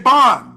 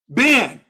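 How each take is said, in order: First: The vowel sounds like the a in bat. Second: The vowel sounds like the e in bed. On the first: This is the speaker's own pronunciation. The speaker calls it right. "No, we say Ban" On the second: This is the Masoretic pronunciation. The speaker calls it wrong. "not Ben, as in the Masoretic"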